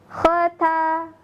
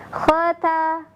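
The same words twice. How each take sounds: Both takes have the same delivery.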